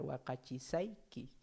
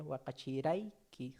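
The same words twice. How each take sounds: First: "Wakachisaiki" said slowly, each syllable clear with the sa suffix; future form. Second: "Wakachiraiki" said slowly, the ra suffix clearly sounded; past form. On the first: Teacher contrasting future and past suffixes for students, slow and clear. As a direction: spell out "Wakachisaiki" slowly, stressing the sa. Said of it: "Pero tiempo pasado sería". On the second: Teacher showing the past suffix ra to students, slow and clear. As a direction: give "Wakachiraiki" slowly, landing on the ra. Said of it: "sufijo ra". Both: Shown as a demonstration.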